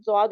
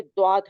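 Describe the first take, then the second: First: "زواد" said with a plain z sound, as many Urdu readers do; the common wrong z reading of "زواد"; wrong Urdu pronunciation. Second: "دواد" said with a heavy d sound in place of the z; the right Arabic reading, "دواد" with a d; correct Arabic pronunciation. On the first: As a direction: say "زواد" with a buzzing z at the start. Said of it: "کچھ لوگ پڑھتے ہیں اس کو زواد، لیکن زواد نہیں ہے". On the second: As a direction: start "دواد" with a thick d from deep in the throat. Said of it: "لیکن زواد نہیں ہے، دواد ہے". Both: Shown as a demonstration.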